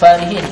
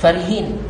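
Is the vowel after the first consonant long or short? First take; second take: long; short. First: The vowel after the first consonant is long. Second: The vowel after the first consonant is short. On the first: It is an active participle. "alif selepas fa" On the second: It is an adjective of a lasting quality. "dengan hazaf alif"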